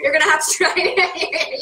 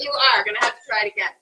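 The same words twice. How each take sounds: First: Said in the usual way. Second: Laughing lead-in, then "are" stressed in full. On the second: Real, not acted. Host insisting that a helper taste, stress on "are". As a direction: lean firmly on "are". Repeats it, emphasising the verb.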